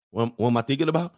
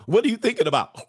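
First: Mumbly, put-upon reply; drowsy boyfriend. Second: High-pitched needy female question; put-on girly prodding; prying girlfriend. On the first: Acted. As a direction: answer in your own register, half asleep and puzzled. Acts drowsy man answering her. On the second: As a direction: pester him in a raised mock-woman voice. Acts woman prodding sleepy man.

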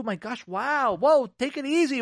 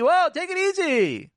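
First: Hammed-up placating spouse; mock whoa, calm down. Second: Much higher, louder exaggerated brush-off; hammed-up whoa, calm down. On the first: Imitating a spouse telling a hurt partner to calm down, mock placating. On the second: Imitating a spouse telling a hurt partner to calm down, hammed-up high and loud. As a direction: shout it up high like an exasperated spouse.

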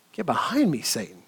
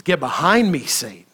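First: Hushed repeat. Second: Said in the usual way. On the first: Acted. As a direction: repeat it much softer, sinking away low. Repeated rebuke, dropped much softer.

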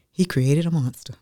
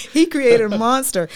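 First: Said in the usual way. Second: Much higher, laughing while saying it; real laughter running through the line. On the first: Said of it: "He created a monster because". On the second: Real, not acted. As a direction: let the laugh carry the words.

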